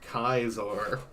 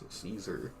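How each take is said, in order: First: The name is said the Latin way. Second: The name is said the English way. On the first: "but in Latin, it's Kaiser" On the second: "In English, it's Caesar"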